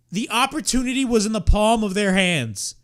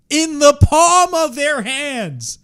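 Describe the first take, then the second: First: Said in the usual way. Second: "In the palm of their hands" spelled out slowly, a bit louder, leaning on "palm"; slow, exasperated stress on "palm"; slow emphatic. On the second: Real, not acted. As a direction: drag out "palm" to hammer the point. Repeats phrase for emphasis.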